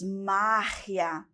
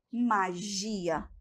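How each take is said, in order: First: "magia" stressed MA, g as a throaty h; Spanish stress and sound. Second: "magia" softer, stressed GI with a zh sound; Portuguese stress on GI. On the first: Teacher shows the Spanish, MA-hia for "magia". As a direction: hit MA, rasped g in "magia". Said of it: "Aqui temos". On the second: Teacher contrasts the Portuguese, softly stressing GI in "magia". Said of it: "E depois". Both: Shown as a demonstration.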